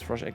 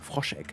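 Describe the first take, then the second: First: The name is pronounced with English-style sounds. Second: The name is pronounced with German-style sounds. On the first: "you tend to, you know, pronounce the English in it anyways" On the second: "I should say it in German though"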